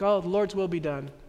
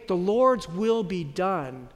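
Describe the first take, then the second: First: It sounds resigned and defeated. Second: It sounds firm and full of conviction.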